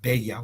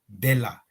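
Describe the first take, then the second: First: The middle consonant sounds like a Y. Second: The middle consonant sounds like an L. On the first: The speaker calls it wrong. "in Spanish we pronounce like the double L, we make it uh, Beya, we make it Y" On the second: The speaker calls it right. "So sorry for the wrong pronunciation, Bella"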